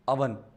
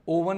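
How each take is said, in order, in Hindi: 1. पहला स्वर एक छोटी 'uh' ध्वनि है। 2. पहला स्वर एक लंबी 'oh' ध्वनि है। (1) "ये बोलेंगे अवन" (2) "ओवन नहीं"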